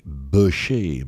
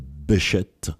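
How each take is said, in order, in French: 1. Le nom se termine par une voyelle ouverte, sans « t ». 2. Le nom se termine par un « t » final bien net. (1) "en insistant bien sur cette prononciation louisianaise" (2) "qui n'aimait pas trop qu'on l'appelle [name]"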